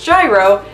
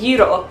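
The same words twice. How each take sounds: First: It is said with an American pronunciation. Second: It is said with a Greek pronunciation. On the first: The speaker calls it wrong. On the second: The speaker calls it right.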